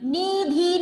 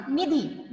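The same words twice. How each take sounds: First: निधि with a breathy, aspirated dh; निधि: heavy aspirated धि, the wrong way; wrong aspirated dhi. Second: निधि with a soft, unaspirated धि; निधि: light unaspirated धि; soft plain di. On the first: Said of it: "निधि नहीं कहा मैंने". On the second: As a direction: say निधि gently, no breath on the d. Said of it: "मैंने धीरे से कहा". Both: Shown as a demonstration.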